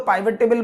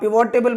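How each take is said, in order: First: The first vowel is an 'eye' sound. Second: The first vowel is a short 'i' sound. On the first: "पाइवट table बोलो" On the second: "आप पिवोट table बोलो"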